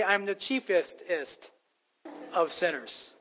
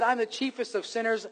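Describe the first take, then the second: First: "chiefest-ist" said very slowly, its extra ending spelled out; drawn-out superlative. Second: Said in the usual way. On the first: Shown as a demonstration. Preacher outdoing Paul's confession, slow emphasis on "chiefest-ist". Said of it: "I'd like to say". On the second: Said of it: "If Paul said".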